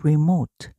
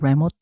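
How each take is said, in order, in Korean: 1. 첫 모음은 'ee'처럼 나요. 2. 첫 모음은 'eh'처럼 나요. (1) "여기서 이는 이 발음이 났어요" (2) "remote 아니고"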